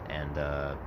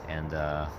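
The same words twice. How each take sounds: Both takes have the same delivery.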